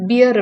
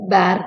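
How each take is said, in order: First: The vowel sounds like the one in 'beer'. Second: The vowel sounds like the one in 'bare'. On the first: The speaker calls it wrong. "நம்ம வந்து பியர் அப்படின்னு தான் pronounce பண்ணுவோம்" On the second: The speaker calls it right. "ஆக்சுவலா proper pronunciation வந்து பேர் தான்"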